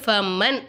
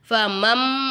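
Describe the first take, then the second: First: The word ends with an n sound. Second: The word ends with an m sound. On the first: The speaker calls it wrong. "ஃபமன் அப்படின்னு சொல்லாமல்" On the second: The speaker calls it right. "ஃபமம் அப்படின்னு சொன்னோம்"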